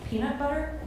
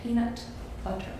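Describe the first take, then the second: First: "Peanut butter?" with a rising American twang; American accent. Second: American accent. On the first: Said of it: "Am I doing it?". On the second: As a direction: try "Peanut butter" the American way. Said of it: "I use the word peanut butter". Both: Shown as a demonstration.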